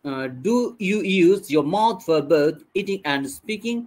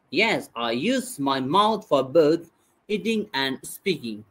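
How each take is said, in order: First: Slow model question, "speaking?" rising at the end; question tune. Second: Slow model answer, "speaking" falling at the end; answer tune. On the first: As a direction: ask slowly, lifting the end on "speaking". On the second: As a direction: answer slowly, letting "speaking" drop. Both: Shown as a demonstration. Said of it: "ঠিক একইভাবে উচ্চারণ করবেন".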